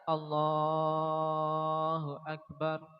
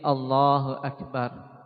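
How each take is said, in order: First: The phrase is stretched out very long. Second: The phrase is said briefly at normal length. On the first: The takbir lasts the whole rise from prostration to standing. The speaker calls it wrong. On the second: The takbir covers only the move to the resting sit. The speaker calls it right.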